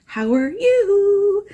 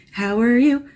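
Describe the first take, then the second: First: Very high, slow sing-song greeting. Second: Said in the usual way. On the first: Pretend. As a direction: stretch it out way up high. Greeting viewers, drawn-out high take.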